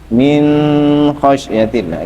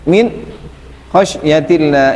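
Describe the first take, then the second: First: The n of min is held with a nasal hum. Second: The voice stops briefly after min. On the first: "Idhar itu tidak boleh ada gunahnya. Min khasyatillah, enggak boleh" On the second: "sakta itu gimana? Berhenti. Min khasyatillah itu tidak, tidak boleh"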